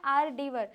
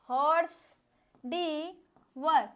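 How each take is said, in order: First: "आर डी वर" with no h sound at the start; correct French pronunciation. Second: "हॉर्स, डी वर" said with the English word horse, h and r sounded; wrong pronunciation. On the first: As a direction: say it the French way, "आर डी वर", h silent. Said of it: "हम इसको बोलते क्या हैं". (सही French उच्चारण "आर डी वर") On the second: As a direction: mispronounce it as "हॉर्स डी वर", like the animal. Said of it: "लेकिन बिल्कुल गलत है". (गलत उच्चारण "हॉर्स डी वर", हॉर्स जैसा) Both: Shown as a demonstration.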